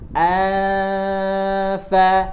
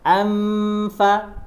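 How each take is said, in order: First: The nasal hum stays open without closing the lips. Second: The nasal closes into an 'm' before the 'f'. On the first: The speaker calls it right. "ditempelkan tapi jangan langsung ditekan ke huruf fa" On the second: The speaker calls it wrong. "kalau langsung amfa itu menyerupai mim nanti"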